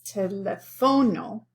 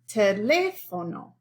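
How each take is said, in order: First: The stress is on the third syllable. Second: The stress is on the second syllable. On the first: The speaker calls it wrong. "this O, which would be the natural stress" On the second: The speaker calls it right. "It falls on this syllable"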